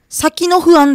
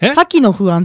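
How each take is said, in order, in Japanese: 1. sakiは標準のピッチです。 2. sakiは人の名前のピッチです。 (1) "先の不安じゃないの。" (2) "先の不安って言ったでしょ今。もうさきさんっていう人かなって思っちゃった"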